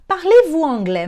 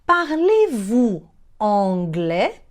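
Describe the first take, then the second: First: Said in the usual way. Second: Very slow, rising question; slow teaching demo. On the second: Shown as a demonstration. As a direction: stretch it out, lifting the end. Teacher models phrase slowly. (pergunta modelo, bem devagar)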